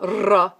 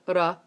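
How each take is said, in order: First: The R is a smooth sound without a tap. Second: The R is a quick single tap. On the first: The speaker calls it wrong. "not ra" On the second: The speaker calls it right. "but ra"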